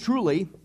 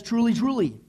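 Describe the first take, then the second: First: Said in the usual way. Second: "Truly, truly," said twice with weight on both; doubled truly for emphasis. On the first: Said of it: "it doesn't say just". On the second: Shown as a demonstration. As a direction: repeat "Truly, truly," to drive it home. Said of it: "It says".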